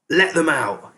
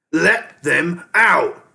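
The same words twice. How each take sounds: First: Sharp rat shout, raised and louder. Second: Slow, drawn-out scream, high and loud. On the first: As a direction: yell it up at the cages. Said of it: "he shouted up to Keith". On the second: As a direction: stretch every word into a scream. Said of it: "Ham and Pork screamed". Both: A narrator's reading.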